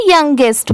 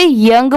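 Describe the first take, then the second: First: यंगेस्ट with a g leading into "est"; superlative pronunciation. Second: यंग as one syllable; base-word pronunciation. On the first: Teacher showing what the added ending does, model pronunciation. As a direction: model यंगेस्ट in two syllables, ending sounded. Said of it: "तो इसे यंगेस्ट पढ़ेंगे". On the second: Teacher reading the shorter spelling for learners, model pronunciation. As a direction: end यंग on the ng, no "est". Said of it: "तो इसे यंग पढ़ेंगे". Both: Shown as a demonstration.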